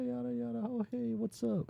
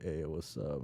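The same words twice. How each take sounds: First: High-pitched put-on girl greeting; main girl voice. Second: Understated guy's greeting, near usual pitch; reply casually as the guy, barely acted; lightly voiced guy. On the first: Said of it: "the main girl's like". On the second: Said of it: "And then he's like".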